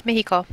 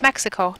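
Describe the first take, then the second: First: Mexico with a Spanish breathy h, "Mi-hi-co"; Spanish pronunciation. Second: Said in the usual way. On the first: Shown as a demonstration. Teacher models Mexico in Spanish, with a soft h.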